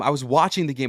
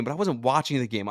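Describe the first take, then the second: First: "watching" lands as the key word, falling off after; stress on watching. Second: "wasn't" pushed as the contrast word; stress on wasn't. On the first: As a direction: lean on "watching" and let the rest drop. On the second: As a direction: hit "wasn't" to flip the line before. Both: Real, not acted.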